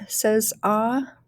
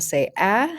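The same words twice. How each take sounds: First: Ah said as a long open vowel; sound demonstration. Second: "ah" said as the short a in apple; short A sound. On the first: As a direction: teach the sound "ah", drawn out. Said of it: "Sometimes A by itself says ah". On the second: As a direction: model a short, front "a" as in apple. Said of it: "like apple". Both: Shown as a demonstration.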